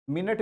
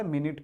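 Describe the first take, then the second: First: मिनट said as min-ut; second vowel of मिनट as uh; wrong schwa reading. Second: मिनट said as min-it; second vowel of मिनट as short i; correct short-i reading. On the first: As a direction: say मिनट ending in -nut. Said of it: "मिनट भी नहीं पढ़ा जाता". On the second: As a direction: say मिनट ending in -nit. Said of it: "मिनट पढ़ा जाता है". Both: Shown as a demonstration.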